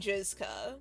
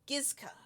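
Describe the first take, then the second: First: The name begins with a soft J sound. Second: The name begins with a hard G sound. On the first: "call it jizz. So, like, like they could be. It could be Jizka" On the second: "I think it is with a G and not the other sound"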